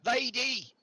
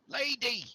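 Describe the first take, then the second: First: High, loud call of Lady. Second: Second call. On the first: Villager calls the lady out of her tent, loudly. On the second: Villager calls again into the tent, raised voice. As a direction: call her name again. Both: Acted.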